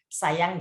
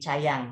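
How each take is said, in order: First: The word begins with a clear s sound. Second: The word begins with a lisped ch-like sound. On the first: The speaker calls it right. "sayang jadi cayang" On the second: The speaker calls it wrong. "sayang jadi cayang"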